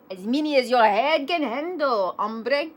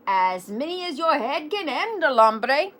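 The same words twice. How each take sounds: First: Second try at a hammed Spanish accent. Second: Poorly faked Spanish accent, pitched up. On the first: Kitty boy answering his reflection, hammed Spanish accent. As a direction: put on an amateur Spanish accent, pitched up. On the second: Kitty boy answering his reflection, shaky attempt at Spanish accent. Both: A narrator's reading. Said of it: "very best Spanish accent".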